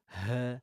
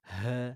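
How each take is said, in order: First: The h sound is heavy, from the chest. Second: The h sound is heavy, from the chest.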